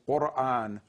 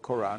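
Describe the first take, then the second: First: It begins with a deep throat q sound. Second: It begins with a plain English k sound. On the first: "its Arabic pronunciation is Quran" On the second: "it now has been changed to K, ... so it's called Quran"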